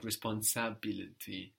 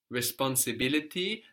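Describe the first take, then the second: First: "responsability" with an Italian A before "-bility". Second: Said in the usual way. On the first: Shown as a demonstration. Teacher hints at the Italian word, saying "responsability" with an A before "-bility". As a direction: say "responsability" with a clear "sah" in place of "si". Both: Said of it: "the I in ability is an A in Italian".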